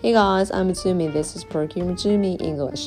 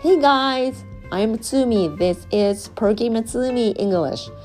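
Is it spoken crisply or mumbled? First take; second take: mumbled; crisply. First: It is mumbled quietly with little mouth movement. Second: It is spoken crisply with a wide-open mouth.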